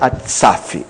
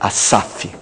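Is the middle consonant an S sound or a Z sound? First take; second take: Z sound; S sound. First: The middle consonant is a buzzing Z sound. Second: The middle consonant is a hissing S sound. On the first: The speaker calls it wrong. "aqui não é Asaf" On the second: The speaker calls it right. "é Asaf"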